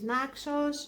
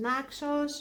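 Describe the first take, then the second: First: The name has a Greek pronunciation. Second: The same.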